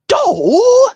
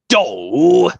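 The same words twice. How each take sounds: First: It is Mario's tiny, small-sized knocked-out voice. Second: It is Mario's normal knocked-out voice.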